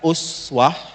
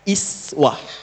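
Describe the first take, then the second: First: The word begins with an 'u' vowel. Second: The word begins with an 'i' vowel. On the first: "Bisa dibaca uswah riwayat Hafs dari Asim. ... Bisa pakai u" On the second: "Bisa dibaca iswah riwayat Qalun juga Warash dari Nafi'. ... bisa pakai i"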